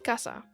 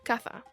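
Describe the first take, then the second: First: The middle consonant is an S sound. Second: The middle consonant is a TH sound. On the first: "said with a S sound" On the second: "have a T H sound"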